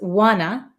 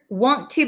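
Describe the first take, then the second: First: The 'to' is reduced to a short ah sound. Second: The 'to' is said fully with an oo vowel.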